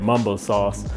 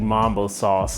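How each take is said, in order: First: It uses the DC-area regional pronunciation. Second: It uses the general, non-regional pronunciation.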